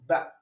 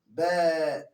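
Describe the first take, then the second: First: The vowel is short, one count only. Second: The vowel is held for two counts. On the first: No long vowel letter follows the consonant. The speaker calls it wrong. "Instead of you pronouncing it in one sound" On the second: A long vowel letter follows the consonant. The speaker calls it right. "it will prolong in the count of two, which will pronounce as ba"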